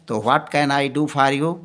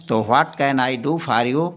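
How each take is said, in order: No difference in how they are said.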